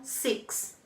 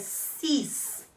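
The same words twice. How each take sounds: First: It is pronounced with an English sound. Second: It is pronounced with a French sound. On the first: The speaker calls it wrong. "Cuidado para não pronunciar como no inglês. ... e não six" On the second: The speaker calls it right. "é six"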